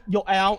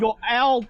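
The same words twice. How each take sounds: First: Said in the usual way. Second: Calling out. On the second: Acted. GM calling out the owl.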